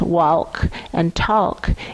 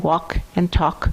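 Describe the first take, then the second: First: The L in both words is clearly pronounced. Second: The L in both words is silent. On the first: This is the original pronunciation that now sounds odd. "it registers as funny" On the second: This is the common everyday pronunciation. "as if those L's aren't even there"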